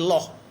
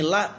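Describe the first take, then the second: First: The syllable is heavy with an 'o' vowel. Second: The syllable is light with an 'a' vowel. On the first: "menjadi loh" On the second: "bunyi la"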